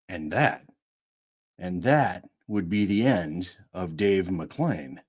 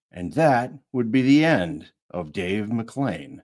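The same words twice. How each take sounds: First: Low and slow, ominous; low slow dramatic take; lower, slow take. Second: Said in the usual way. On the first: Shown as a demonstration. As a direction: drop it down, weighty. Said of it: "retake lower and slower".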